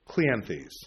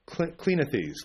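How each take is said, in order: First: The name is said with a 'clee-an' sound. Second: The name is said with a short 'i' sound. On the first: The speaker calls it right. "There we go. That's better" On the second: The speaker calls it wrong. "I can never pronounce Greek names"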